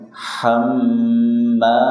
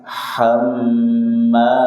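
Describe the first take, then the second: The two takes are said the same way.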